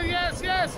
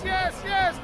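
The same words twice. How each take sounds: First: High shouted yes; excited yes. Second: High shouted yes, falling at the end; excited yes. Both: Real, not acted. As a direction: yell it as a cheer. Cheering the climb.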